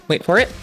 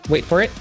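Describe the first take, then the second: No difference in how they are said.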